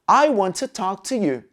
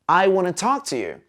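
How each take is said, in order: First: Every word is said carefully and clearly. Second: It is said quickly, with words run together.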